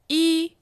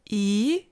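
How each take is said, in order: First: The pitch stays high and level. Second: The pitch rises from mid to high.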